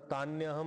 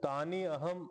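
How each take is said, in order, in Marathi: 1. दोन शब्द लवकर एकत्र होऊन एक होतात. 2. दोन शब्द वेगळे म्हटले जातात. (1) "थोडं स्पीड मध्ये म्हणलं तर तान्यहम आपोआप होऊन जात"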